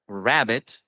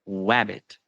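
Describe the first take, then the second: First: The word begins with an R sound. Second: The word begins with a W sound.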